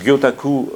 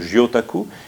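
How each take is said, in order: First: It is pronounced the Japanese way. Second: It is pronounced the French way. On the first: It names the Japanese fish-print technique. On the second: It sounds like a pun on an inked woman.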